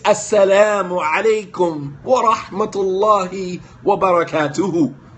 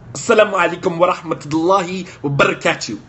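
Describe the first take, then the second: First: The last word ends with a final 'u' vowel. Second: The last word ends without a final vowel. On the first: The speaker calls it right. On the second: The speaker calls it wrong. "He don't even know how to say it correctly"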